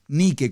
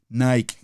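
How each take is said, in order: First: The name is pronounced with Spanish vowels. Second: The name is pronounced with English vowels. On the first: "como lo estoy pronunciando" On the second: "pronunciándola en inglés"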